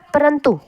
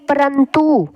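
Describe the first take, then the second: First: The u vowel is short and quick. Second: The u vowel is drawn out long. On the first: The speaker calls it right. "बोलना होता है परंतु" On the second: The speaker calls it wrong. "बड़ी देर तक मात्रा डाल देते हैं"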